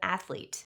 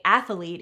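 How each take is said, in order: First: No extra sound is added in the middle. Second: An extra sound is added in the middle. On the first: The speaker calls it right. "instead of athlete" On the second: The speaker calls it wrong. "adding an extra sound to a word"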